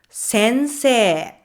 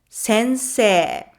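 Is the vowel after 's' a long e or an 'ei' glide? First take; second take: long e; long e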